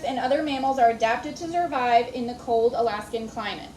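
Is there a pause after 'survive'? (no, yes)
no. It runs on without a pause after survive. It is one complete sentence. The speaker calls it right. "So the way you would read that word, that sentence is"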